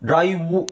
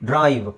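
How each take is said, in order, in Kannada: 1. ಪದ ಕೊನೆಯಾಗುವುದು ಸೇರಿಸಿದ u ಸ್ವರದಿಂದ. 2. ಪದ ಕೊನೆಯಾಗುವುದು v ವ್ಯಂಜನದಲ್ಲಿ.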